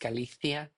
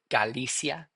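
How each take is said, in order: First: The name is said with a Spanish pronunciation. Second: The name is said with an English pronunciation. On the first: "that's how you sp- say it with a a Spanish dialect" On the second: "I would say"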